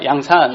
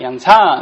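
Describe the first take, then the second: First: The word is said without a raised pitch. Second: The word is said with a raised pitch. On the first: The speaker calls it wrong. "이렇게 양산하면 안 된다고 하더라고요" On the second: The speaker calls it right. "양산 이렇게 올려야 된다고 하더라고요"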